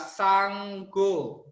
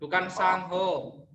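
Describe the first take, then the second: First: The middle has a hard 'g' sound. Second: The middle has a breathy 'h' sound. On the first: The speaker calls it right. "G-nya ada dua ya" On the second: The speaker calls it wrong.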